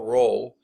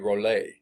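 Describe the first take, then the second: First: The name ends without a final vowel sound. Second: The name ends with an audible final vowel sound. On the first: "I'm not even sure I'm pronouncing his name right" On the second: "It may be Rollet"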